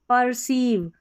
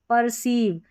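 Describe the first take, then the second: The two takes are said the same way.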